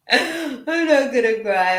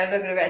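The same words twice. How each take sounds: First: Slow, higher, choked-up voice; holding back tears. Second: Said in the usual way. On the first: Real, not acted. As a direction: fight the tears as you speak.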